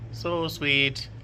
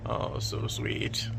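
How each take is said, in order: First: Said in the usual way. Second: Breathy slow whisper on so sweet; whispered coo. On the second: Real, not acted. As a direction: whisper it to the cat, slowly. Cooing at the cat.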